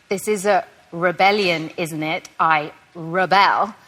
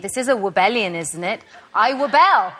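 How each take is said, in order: First: The R sounds are pronounced clearly. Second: The R sounds are softened and unclear. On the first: The speaker calls it right. "which takes so much effort" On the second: The speaker calls it wrong. "I naturally want to say"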